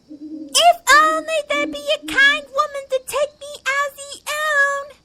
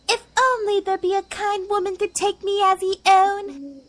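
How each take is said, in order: First: It is said noticeably louder. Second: It is said at a normal, softer volume.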